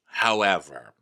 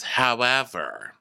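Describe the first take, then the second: First: Said in the usual way. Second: Slow, stretched-out "However" with a falling end; drawn-out however. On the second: Retold or imitated. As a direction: drag out the word "However" slowly. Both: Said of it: "So she's like".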